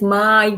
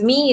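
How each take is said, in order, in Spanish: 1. La vocal suena como 'eye'. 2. La vocal suena como 'ee'. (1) "es my brother" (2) "no es me"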